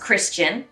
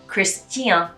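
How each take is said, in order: First: The ending sounds like 'chin'. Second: The ending sounds like 'tien'. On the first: "normally in English. There's a lot of this chin coming out" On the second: "with the French accent, you really need to pronounce the T"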